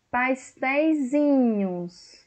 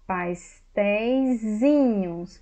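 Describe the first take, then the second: First: Pastéisinhos stretched out, pitched higher; slow emphatic demo. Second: Pastéisinhos drawn out at a steady pitch; slow demo word. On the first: Teacher repeating the form to stress the Z, slow and higher. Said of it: "eu mudo para Z". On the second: Teacher first showing the diminutive plural, slow. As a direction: sound out Pastéisinhos slowly. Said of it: "colocar no diminutivo, plural". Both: Shown as a demonstration.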